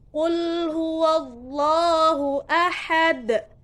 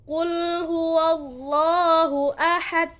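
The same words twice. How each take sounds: First: The final d is released with a strong bounce. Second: The final d is cut off with no bounce. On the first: The speaker calls it right. "harus dengan pantulan. Pantulan yang berat atau besar" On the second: The speaker calls it wrong. "Tidak boleh ... tidak ada pantulan sama sekali"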